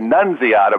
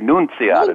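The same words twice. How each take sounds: First: The name is said with American English sounds. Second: The name is said with Italian sounds. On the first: "in the U.S. they say, people say Nunziata" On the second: "when I go to Italy, they say Nunziata. That's the way you're supposed to say"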